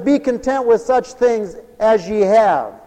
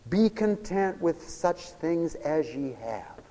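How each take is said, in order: First: Loud, slow preached scripture. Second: Soft reverent reading. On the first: Preacher proclaiming the verse to the congregation, loud and slow. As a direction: proclaim it slowly and loudly. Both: Shown as a demonstration. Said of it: "Listen to it".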